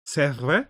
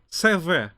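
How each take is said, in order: First: C'est vrai with a rise on vrai; questioning tune. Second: C'est vrai said higher, falling on C'est; confirming tune. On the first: Asking the French speaker in chat, questioning rise. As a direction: ask it back to chat. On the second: Answering herself for the French speaker in chat, confirming fall. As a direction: settle it as a statement. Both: Shown as a demonstration. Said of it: "resident French speaker here in chat".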